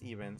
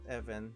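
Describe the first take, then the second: First: The first vowel sounds like the one in 'see'. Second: The first vowel sounds like the one in 'bed'. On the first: The speaker calls it right. "but no, it was even" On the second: The speaker calls it wrong. "why did I s- pronounce that as Evan?"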